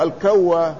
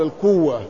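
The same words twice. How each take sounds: First: "الكوة" said al-kawwa, with a; fatha on kaf. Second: "الكوة" said al-kuwwa, with u; damma on kaf. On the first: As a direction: open the first vowel of "الكوة" to kaw. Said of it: "بفتح الكاف". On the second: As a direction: round the first vowel of "الكوة" to kuw. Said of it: "الضم، يقال". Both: Shown as a demonstration.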